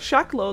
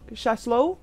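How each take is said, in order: First: The middle consonant is a K sound. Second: The middle consonant is an S sound. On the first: This is how the name is usually said. The speaker calls it wrong. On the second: This is how the name is supposedly said. The speaker calls it right.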